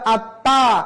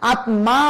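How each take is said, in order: First: The m is dropped; t is doubled and nasal. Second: The m sound is clearly pronounced. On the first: The speaker calls it right. "বলতে হবে আত্মা" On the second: The speaker calls it wrong. "আত্মা বলা যাবে না"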